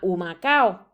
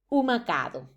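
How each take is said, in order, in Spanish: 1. La palabra termina en una secuencia de vocales sin d. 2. Se añade un sonido d antes de la o final. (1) "esa es la palabra original" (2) "sufren de ultracorrección diciendo Humacado"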